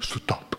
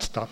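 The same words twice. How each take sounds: First: It is said in a Korean-style manner. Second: It is said in a plain English way.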